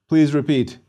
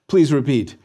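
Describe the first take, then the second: No difference in how they are said.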